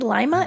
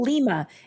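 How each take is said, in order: First: It is said like the lima bean. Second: It is said like the Peruvian city's name. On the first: The speaker calls it right. "It's really Lima, ... Like the bean" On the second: The speaker calls it wrong. "which I want to call Lima"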